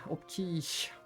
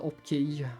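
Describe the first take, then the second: First: The name ends in an sh sound. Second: The name ends in a Swedish J sound. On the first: "I have a lot of people say Opkish as well" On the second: "or with the J at the end"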